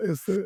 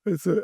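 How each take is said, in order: Both takes have the same delivery.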